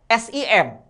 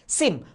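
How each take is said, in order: First: It is pronounced as three separate letters. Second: It is pronounced as one single word. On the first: The speaker calls it wrong. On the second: The speaker calls it right. "kita eja bagaikan sebuah kata dasar"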